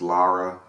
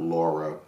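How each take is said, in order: First: The first vowel sounds like the vowel in 'car'. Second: The first vowel sounds like the vowel in 'law'. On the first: The speaker calls it right. "it's Lara" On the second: The speaker calls it wrong. "not Laura, as people have been pronouncing it wrongly"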